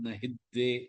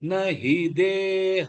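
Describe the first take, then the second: First: The syllables run together with a doubled consonant. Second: Each syllable is said separately and distinctly. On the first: The speaker calls it wrong. "ஹித்துக்கு இதெல்லாம் வராம" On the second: The speaker calls it right. "எல்லாமே தனித்தனியா சொல்லணும்"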